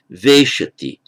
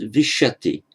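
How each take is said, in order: First: Veshati with a strong, long VE; stress on first syllable. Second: Vishati with short VI, stressed SHA; stress on second syllable. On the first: Teacher giving the hypothetical verb form, first-syllable stress on veshati. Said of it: "if the stress were on the first". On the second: Teacher giving the actual verb form, second-syllable stress on vishati. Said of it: "The stress is on the second syllable". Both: Shown as a demonstration.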